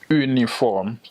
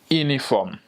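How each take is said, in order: First: The word begins with a rounded 'u' vowel. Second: The word begins with an 'ee' vowel. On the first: This is the French pronunciation. "uniform in French. Not only there is a U at the beginning" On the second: This is the Creole pronunciation. "But in Creole, I would say uniform. Not only I don't say the U"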